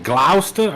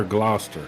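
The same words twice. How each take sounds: First: "Gloucester" said GLOW-ster, first vowel as in "cow"; questioned pronunciation. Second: "Gloucester" said GLOSS-ter, open first vowel; alternative pronunciation. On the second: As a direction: say "Gloucester" to rhyme with "roster". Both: Shown as a demonstration. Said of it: "Is that how you say it?".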